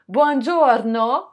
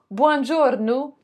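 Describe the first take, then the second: First: Buongiorno slow, ending in O; Italian buongiorno. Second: Buongiorno ending in U, buongiornu; Sicilian buongiornu. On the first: Vlogger giving the Italian greeting, buongiorno ending in O. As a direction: say buongiorno with an open final O. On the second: Vlogger showing the Sicilian greeting, buongiorno ending in U. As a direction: end buongiorno on a U sound. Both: Shown as a demonstration. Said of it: "le O devient un U".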